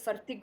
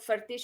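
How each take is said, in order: First: The word ends with a hard k sound. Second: The word ends with a soft ch sound. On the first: "कुछ लोग उसको फर्तिक बोलते हैं" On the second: "कुछ लोग फर्तिश"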